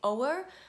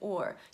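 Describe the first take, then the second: First: The word is said as two syllables. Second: The word is said as one syllable. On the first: The speaker calls it wrong. "You should not say o'er" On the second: The speaker calls it right. "Please note that I said or"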